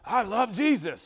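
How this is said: It is said in a harsh, angry voice. The delivery clashes with the loving words. The speaker calls it wrong. "they sound angry when they're singing"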